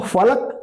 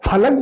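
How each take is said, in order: First: The word begins with an f sound. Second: The word begins with an aspirated ph sound. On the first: It means the sky. "अगर उसके नीचे नुक्ता लगा दे तो फलक आसमान हो जाता है" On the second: It means a wooden plank. "अगर आप फलक बोल देते हैं तो लकड़ी का तख्त कहलाता है"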